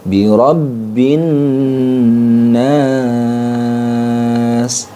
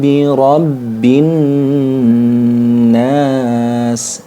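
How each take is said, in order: First: The vowel in nas is held for three beats. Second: The vowel in nas is held for one beat. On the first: "Kalau tiga alif" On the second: "Itu kalau satu alif"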